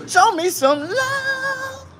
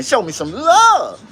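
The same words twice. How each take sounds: First: High, drawn-out sung line; sung plea. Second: Said in the usual way. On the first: Acted. Streamer begging viewers for likes, sung high and slow. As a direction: croon it slow and high like a hook.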